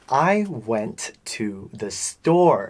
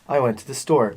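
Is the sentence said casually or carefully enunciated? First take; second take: enunciated; casual. First: Every syllable is pronounced clearly and separately. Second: The words run together in relaxed everyday speech. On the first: The speaker calls it right. "if you properly enunciate everything" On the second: The speaker calls it wrong. "there's a lot of people who can say"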